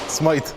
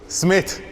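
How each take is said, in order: First: The vowel sounds like 'eye' as in 'write'. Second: The vowel sounds like 'ih' as in 'sit'. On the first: The speaker calls it wrong. "they pronounce it Smythe" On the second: The speaker calls it right. "when I say it's Smith"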